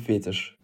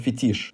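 First: The stress is on the first syllable. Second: The stress is on the second syllable. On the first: The speaker calls it right. "мы говорим фетиш" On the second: The speaker calls it wrong. "ударение на «и»"

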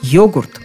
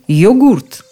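First: The stress is on the first syllable. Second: The stress is on the second syllable. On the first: "с ударением на первом слоге" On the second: "ударение на последнем слоге"

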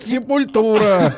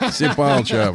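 First: The name is said in a plain Russian way. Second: The name is said in a mock English accent.

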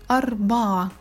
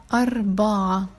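Both takes have the same delivery.

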